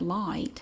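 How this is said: It is said in the speaker's regional accent. This is how the speaker's own community says it. "but we pronounce it light and night"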